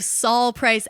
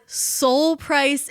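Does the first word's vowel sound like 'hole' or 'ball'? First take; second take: ball; hole. First: The name's vowel sounds like the one in 'ball'. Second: The name's vowel sounds like the one in 'hole'. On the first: The speaker calls it right. "instead of Saul Price" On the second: The speaker calls it wrong. "we pronounced the founder of Costco as Soul Price"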